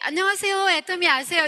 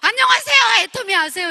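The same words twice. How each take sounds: First: It is said softly in a polished manner. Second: It is said loudly in a forced manner. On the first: The speaker is confident and refined. The speaker calls it right. "지금 같으면 좀 세련되게" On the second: The speaker lacks courage and confidence. The speaker calls it wrong. "목소리가 더 커지는 거예요"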